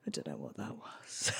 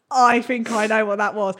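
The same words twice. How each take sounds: First: Very low, hushed mumble; flustered near-whisper, played for laughs. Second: Said in the usual way. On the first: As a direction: imitate him sheepish, barely audible. Sheepish man returns flustered.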